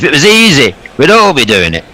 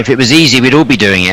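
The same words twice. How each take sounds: First: It is said in a Yorkshire accent. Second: It is said in the speaker's usual accent.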